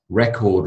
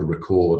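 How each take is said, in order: First: "record" stressed on the first syllable; noun stress on "record". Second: "record" stressed on the second syllable; verb stress on "record". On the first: Teacher shows class a heteronym, first-syllable stress on "record". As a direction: put the beat on REC in "record". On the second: Teacher shows class a heteronym, second-syllable stress on "record". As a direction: put the beat on CORD in "record". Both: Shown as a demonstration. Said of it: "different word emphasis".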